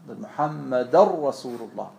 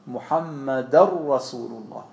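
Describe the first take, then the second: The two takes are said the same way.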